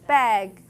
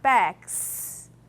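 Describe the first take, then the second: First: The word ends with a buzzing Z sound. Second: The word ends with a hissing S sound. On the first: The speaker calls it right. "It's bags. ... it's the instead of s" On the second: The speaker calls it wrong. "Native speakers' pronunciation is not bags"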